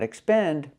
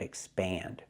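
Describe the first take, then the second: First: The stressed vowel is a closer 'e' sound. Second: The stressed vowel is an open 'a' sound. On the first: The speaker calls it wrong. "Not expend" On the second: The speaker calls it right. "but expand. The vowel is more open"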